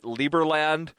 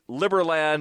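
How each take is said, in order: First: The first syllable sounds like 'lee'. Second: The first syllable sounds like 'lib'. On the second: "as in liberty"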